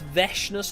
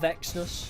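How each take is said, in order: First: The middle consonant is a 'sh' sound. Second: The middle consonant is a 'ks' sound. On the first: The speaker calls it right. "It's Veshness, you don't pronounce the X" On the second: The speaker calls it wrong. "not Vexness"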